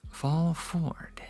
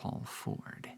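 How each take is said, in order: First: The voice is at normal speaking volume. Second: The voice is soft and whispery, ASMR style. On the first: "now that we're talking back at normal volume, let me do the same quote" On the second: "We'll break off the A S M R for just a second"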